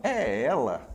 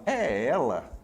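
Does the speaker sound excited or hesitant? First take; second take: hesitant; hesitant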